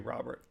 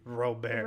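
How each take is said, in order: First: The name is said with English pronunciation. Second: The name is said with French pronunciation. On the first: The speaker calls it wrong. "It wouldn't be Robert" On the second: The speaker calls it right. "It would be Robert"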